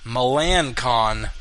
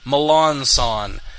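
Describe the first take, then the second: First: The name ends with a hard 'kon' sound. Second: The name ends with a 'son' sound. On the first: "It's spelled Melancon. M E L A N C O N" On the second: "he tells people to say Melanson"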